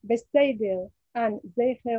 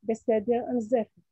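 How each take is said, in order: First: The vowel is said as a gliding diphthong. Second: The vowel is said as a steady pure e. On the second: "Sere is realized as monophthong E"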